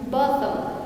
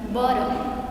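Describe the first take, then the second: First: The middle T is a strong, clear T. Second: The middle T sounds like an R. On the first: "in British pronunciations sounds bottom" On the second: "And in American pronunciation sounds bottom"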